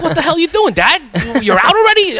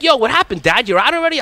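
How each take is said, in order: First: High, bright mock-child voice asking dad what happened; kids teasing. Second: Put-on kids teasing. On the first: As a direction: imitate the kids calling out to dad, pitched up. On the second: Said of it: "My kids were like".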